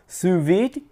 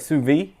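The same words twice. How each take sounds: First: The final d sound of vide is lightly heard. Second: The final d sound of vide is dropped. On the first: "it kind of hits the D a little bit" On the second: "they refuse to say the D E"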